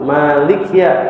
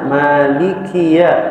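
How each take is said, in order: First: The vowel after the k is dropped. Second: The vowel after the k is clearly pronounced. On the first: The speaker calls it wrong. "Banyak juga yang ketika baca terasa sukun" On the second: The speaker calls it right. "baca tartil santai sehingga ditunaikan kasrohnya"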